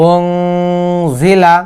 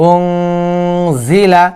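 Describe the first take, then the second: The two takes are said the same way.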